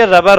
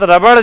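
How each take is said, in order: First: "ربر" ending in a plain r, no retroflex flap; English-word pronunciation. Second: "ربڑ" ending in a hard retroflex flap; Urdu-style "ربڑ" with a flapped last sound; Urdu pronunciation. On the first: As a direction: say "ربر" with a simple final ر in place of ڑ. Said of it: "English میں یہ ربر ہوتا ہے". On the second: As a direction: say "ربڑ" the Urdu way, tongue curled back on the final ڑ. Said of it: "ربڑ جو ہے اردو میں بولتے ہیں". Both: Shown as a demonstration.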